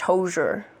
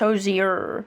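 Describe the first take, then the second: First: The middle 'ee' sound is dropped. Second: The middle 'ee' sound is pronounced. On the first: The speaker calls it wrong. "My mom thought it was just [name]" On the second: The speaker calls it right. "So you do pronounce the I"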